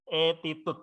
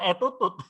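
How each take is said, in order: First: The middle syllable sounds like 'ti'. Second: The middle syllable sounds like 'tu'. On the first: The speaker calls it right. "etitut ya, gampangnya gitu ya" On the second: The speaker calls it wrong. "Jadi bukan etutut"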